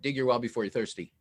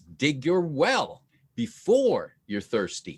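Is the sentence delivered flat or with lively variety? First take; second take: flat; lively. First: The sentence is said flat, without vocal variety. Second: The sentence is said with lively vocal variety. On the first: The speaker calls it wrong. "he's saying it wrong" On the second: The speaker calls it right.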